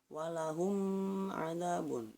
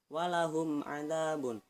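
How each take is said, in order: First: The m is pressed and held with force. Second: The m is said plainly, without holding it. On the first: The speaker calls it wrong. "jangan dibaca walahum adzabun. Nah, tidak perlu ditekankan" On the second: The speaker calls it right. "seperti contohnya"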